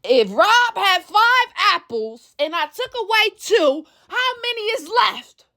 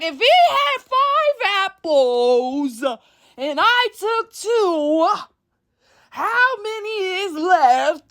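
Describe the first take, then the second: First: Put-on slow, careful explaining, like to a child; patient explaining. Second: Very slow, higher, exasperated spelling-out; agitated. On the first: Retelling the argument, slowly and patiently explaining. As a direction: spell out the sum patiently. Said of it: "your tone might change now". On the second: Retold or imitated. Losing patience with a stubborn friend, very slowly and agitated. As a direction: drag out each word, fed up. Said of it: "Now you're agitated".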